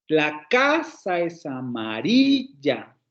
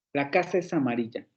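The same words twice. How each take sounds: First: Slow, stress only "casa" and "amarilla"; two accents only. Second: Said in the usual way. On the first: Shown as a demonstration. Teacher shows the two accents to the class, slow and deliberate. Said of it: "Solamente hay dos acentos". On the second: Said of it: "nunca pronunciamos la casa es amarilla".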